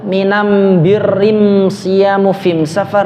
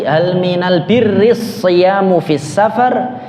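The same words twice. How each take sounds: First: "minam birrim siyamu fim safar" with am in place of al, the m sounds held; slow, careful recitation with "am" for the article: "minam", "birrim", "fim"; the Himyar dialect reading, al turned to am. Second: Said in the usual way. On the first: Shown as a demonstration. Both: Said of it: "yang satu bacanya al itu am".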